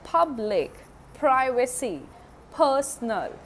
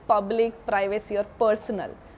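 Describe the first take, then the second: First: The P sounds are said English-style. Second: The P sounds are said Hindi-style. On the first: The speaker calls it right. "I'm saying" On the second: The speaker calls it wrong. "I'm not saying"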